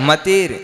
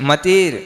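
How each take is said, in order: No difference in how they are said.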